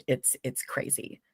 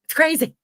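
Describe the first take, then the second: First: Whisper. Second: Excited. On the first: Muttered awe at Southern parades. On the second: Exclaims after whispered version. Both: Real, not acted.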